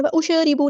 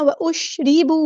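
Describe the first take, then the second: First: वउशरिबू said without moving the shin; the mistaken वउशरिबू, shin left flat; wrong reading. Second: वउशरिबू with the sakin shin given a slight jolt, recited; correct reading. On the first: Teacher showing the error to avoid. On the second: Teacher showing the right way to students. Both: Shown as a demonstration. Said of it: "शीन साकिन को यहाँ पे हिलानी है".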